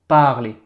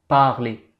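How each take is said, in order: Both takes have the same delivery.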